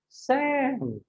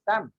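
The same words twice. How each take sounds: First: The name is stretched out and drawn long. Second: The name is said short and clipped. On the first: The speaker calls it right. "he'll be extending your name" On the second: The speaker calls it wrong. "rather than like just say Sam"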